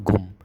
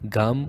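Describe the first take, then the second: First: A clear U vowel follows the G. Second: A clear A vowel follows the G. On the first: "or Gum"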